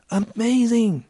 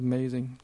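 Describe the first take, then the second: First: It is said with genuine, lively excitement. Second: It is said flatly, without real enthusiasm. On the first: The children were truly thrilled. "tức là các em thích thú vô cùng" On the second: The praise is only polite, not heartfelt. "chứ không phải là amazing"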